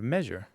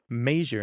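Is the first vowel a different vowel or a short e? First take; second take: short e; different vowel. First: The first vowel is a short e. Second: The first vowel is not a short e.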